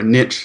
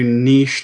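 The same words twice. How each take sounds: First: Niche is said in an American accent. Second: Niche is said in a non-American accent.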